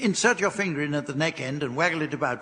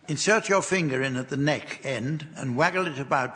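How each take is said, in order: First: It is read very quickly. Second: It is read at a normal pace.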